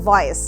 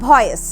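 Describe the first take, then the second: First: The first sound uses upper teeth on lower lip. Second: The first sound is made with both lips. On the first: The speaker calls it right. "এর সঠিক উচ্চারণ কিন্তু" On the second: The speaker calls it wrong. "ভয়েস শব্দটা আমরা অনেক ব্যবহার করি"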